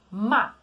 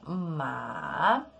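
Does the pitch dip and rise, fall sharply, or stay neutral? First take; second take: falls sharply; dip-rise. First: The pitch starts high and falls quickly. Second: The pitch dips low and then rises. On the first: It means to scold. "Ele sobe lá do alto e desce de uma forma rápida" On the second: It means horse. "palavras isoladas a gente desce e sobe"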